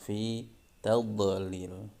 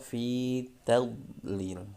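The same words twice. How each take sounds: First: The dhad sound is bounced with an echo. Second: The dhad sound is held without bouncing. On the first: The speaker calls it wrong. "huruf dhad dibaca mantul" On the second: The speaker calls it right. "Kalau dhad tidak boleh"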